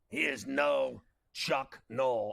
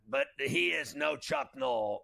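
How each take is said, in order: First: It is said slowly and deliberately. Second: It is said at a normal pace.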